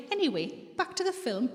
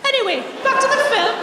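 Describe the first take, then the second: First: Said in the usual way. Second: High, loud, breezy brush-off; blatantly obvious subject change, pitched right up; unsubtle change of subject. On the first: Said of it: "and then I'll say". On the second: Acted. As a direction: swerve away loudly, as if nothing was said. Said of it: "I didn't say they were subtle".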